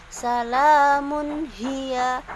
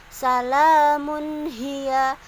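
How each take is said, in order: Both takes have the same delivery.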